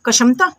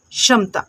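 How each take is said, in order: First: कशमता with an extra "ka" before "sham"; questioning misreading, कशमता as ka-sham-ta; wrong pronunciation. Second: क्षमता starting with just "sh", as sham-ta; correct pronunciation. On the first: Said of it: "नहीं". (सवाल के लहजे में "क" जोड़कर कशमता) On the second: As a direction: drop the k sound in क्षमता. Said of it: "इसको हम पढ़ते हैं". (क्षमता को "शम्-ता" की तरह बोलें) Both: Shown as a demonstration.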